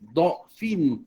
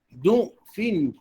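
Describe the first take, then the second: First: The first vowel is an open 'a' sound. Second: The first vowel is a rounded 'u' sound.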